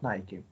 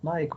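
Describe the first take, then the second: First: The word is said as two syllables. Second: The word is said as one syllable. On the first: The speaker calls it right. "but Nike" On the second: The speaker calls it wrong. "not Nike"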